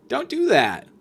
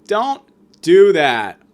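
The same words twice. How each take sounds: First: A higher put-on voice saying don't do that; lightly mocking, high warning. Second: Louder and slow, every word weighted; slow firm command. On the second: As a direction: lay down the law, slowly. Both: Shown as a demonstration.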